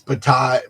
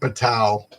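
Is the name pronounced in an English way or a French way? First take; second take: French; English. First: The name is pronounced the French way. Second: The name is pronounced in an English way. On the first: The speaker calls it right. "it's Bataille, Bataille, you know, like um, uh, French" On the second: The speaker calls it wrong. "it's not Bataille"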